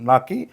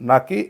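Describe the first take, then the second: No difference in how they are said.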